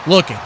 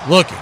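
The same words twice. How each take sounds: The two takes are said the same way.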